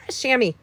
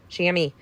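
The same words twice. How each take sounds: First: Said in the usual way. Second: Whispered repeat. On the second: Shown as a demonstration. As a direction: whisper the word chamois to yourself.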